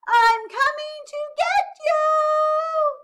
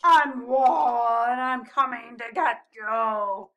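First: Very high, slow full-voiced shout; high loud little-penguin call; crying out. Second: Loud, drawn-out playful threat; booming mock-menacing walrus; growling pretend monster. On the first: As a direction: holler it across the snow, stretching each word. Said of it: "he cried". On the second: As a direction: growl it like a lumbering beast. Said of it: "growled Posy". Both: A narrator's reading.

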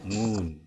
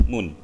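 First: "moon" slowly, long u with pouted lips; long rounded moon. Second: "moon" with a short clipped u; wrong short moon. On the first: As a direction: stretch the u in "moon". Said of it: "Enggak, moon". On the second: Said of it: "Jadi nggak bilang moon". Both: Shown as a demonstration.

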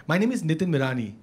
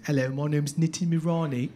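First: Said in the usual way. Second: Low-pitched put-on British accent. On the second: Shown as a demonstration. Comic introduces himself to the audience, put-on British accent. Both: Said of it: "but not there is the accent".

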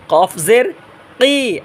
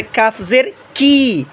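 First: "কফ জের কি" drawn out with heavy back q; slow "qof zer qi", q at tongue root; thick QAF. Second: "কাফ জের কি" slowly with light k; thin KAF. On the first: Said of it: "এটা মোটা আওয়াজ". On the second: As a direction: clean thin "ki", tongue further forward. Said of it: "এটা চিকন আওয়াজ". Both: Shown as a demonstration.

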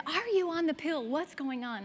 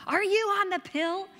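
First: Demanding mom. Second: Mother's shout, loud and much higher; angry mom shout. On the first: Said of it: "she said". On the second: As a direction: mom yells the question in alarm at her daughter. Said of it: "she's like". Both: Retold or imitated.

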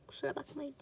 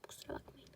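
First: Said in the usual way. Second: Breathy whispered sorry, barely audible; whispered apology. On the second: Shown as a demonstration.

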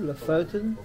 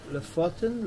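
First: "Lofoten" with a long "oh" in the middle; alternative pronunciation. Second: "Lofoten" with a short open o in "fot"; alternative pronunciation. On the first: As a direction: say "Lofoten" as luh-FOH-ten. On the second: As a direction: say "Lofoten" as luh-FOT-en, questioning. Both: Shown as a demonstration. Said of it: "How do you pronounce it".

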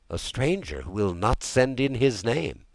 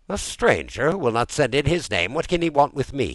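First: Said in the usual way. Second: Higher, louder incredulous question; puzzled echo. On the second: A narrator's reading. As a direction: repeat the news in disbelief. Master echoes valet in disbelief.

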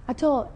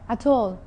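No difference in how they are said.

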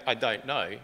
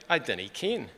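First: Said in the usual way. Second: A light Scottish lilt on dinna ken; mild Scottish accent. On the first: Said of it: "Instead of saying". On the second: Retold or imitated. Son quoting his Scottish mum, lightly Scottish accent. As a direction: quote Mum in a touch of Scots. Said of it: "she would say".

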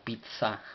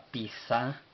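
First: "pizza" with t-s, as pit-sa; double-Z sound. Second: "pizza" with a plain s sound, pi-sa; Mexicali pronunciation. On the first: Teacher explaining double Z as in pizza, TS pronunciation. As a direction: put a clear t before the s in "pizza". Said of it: "que viene siendo doble Z, como pizza". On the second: Speaker recalling how Mexicali people said pizza, local pronunciation. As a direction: say "pizza" without the t, as pi-sa. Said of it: "nosotros en, eh, Mexicali nos referíamos". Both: Shown as a demonstration.

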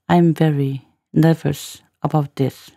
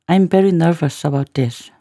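First: Slow, segmented teacher's demo; slow, in chunks. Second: Said in the usual way. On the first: Shown as a demonstration. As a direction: say it slowly, one word group at a time. Teacher repeats line in slow chunks.

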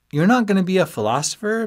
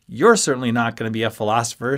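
First: High, louder disbelieving friend; surprised question. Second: Accusing put-down. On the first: Friend asking about giving up philosophy, high and surprised. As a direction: ask it way up high, rising. Ben asks, Ski echoes back. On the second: Friend putting down another friend, quick accusing retort. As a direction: fire it back at him fast. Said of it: "pointing an accusing finger". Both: A narrator's reading.

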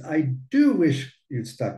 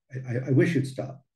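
First: "do" pushed up and leaned on before wish; "do" given a firm emphatic push. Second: Said in the usual way. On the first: Shown as a demonstration. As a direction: stress the "do" in I do wish you'd stop. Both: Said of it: "Pero uno quiere hacer un poco de énfasis".

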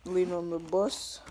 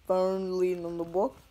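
First: Said in the usual way. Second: Says "box" where "bus" was meant; "box" said by accident instead of "bus"; slip of the tongue. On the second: Real, not acted. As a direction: trip on the word "box" by mistake. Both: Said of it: "I almost said box there".

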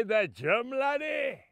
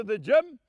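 First: Put-on incredulous old Scotsman's comeback; Scottish father's accent, rising then falling. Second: Said in the usual way. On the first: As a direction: query it in a broad Scottish accent. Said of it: "that big, strong Scotsman".

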